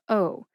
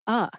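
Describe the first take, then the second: First: The vowel is a full, long O sound. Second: The vowel is a short, reduced uh sound. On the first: The speaker calls it wrong. "That fifth syllable written out is O H, like O" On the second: The speaker calls it right. "but pretty much everybody tends to say uh"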